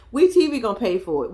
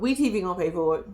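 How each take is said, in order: First: Said in the usual way. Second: We T V gonna pay for it tossed off softer and faster; quieter aside. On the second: Shown as a demonstration. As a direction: mutter the repeat to yourself, quicker. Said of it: "repeat as a quieter aside".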